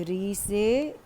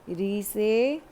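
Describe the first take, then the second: No difference in how they are said.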